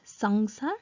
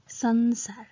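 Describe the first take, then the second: First: The middle nasal is an 'ng' sound. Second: The middle nasal is a plain 'n' sound. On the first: The speaker calls it wrong. "not sangsar" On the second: The speaker calls it right. "it is pronounced as sansar"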